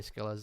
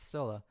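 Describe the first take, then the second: First: The name begins with an 'sk' sound. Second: The name begins with an 's' sound. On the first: This is how other people say it. The speaker calls it wrong. "All other people say Skillas" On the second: This is the intended way to say it. The speaker calls it right. "no, it's it's Scylla. Like, come on, Priscilla"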